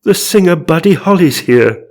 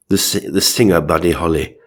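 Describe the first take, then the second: First: High, loud theatrical announcement; overexcited character reveal; mock astonishment. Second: Said in the usual way. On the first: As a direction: proclaim the ghost's name in hammed-up awe. Gasped announcement of celebrity ghost.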